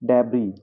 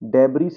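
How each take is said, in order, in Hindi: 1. अंतिम s silent है। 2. अंतिम s बोला जाता है। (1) "यहाँ पे क्या मैंने बोला" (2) "नहीं"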